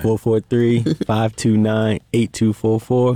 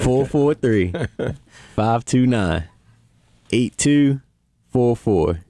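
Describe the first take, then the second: First: The number is said quickly. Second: The number is said slowly.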